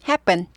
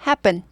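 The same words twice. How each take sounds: The two takes are said the same way.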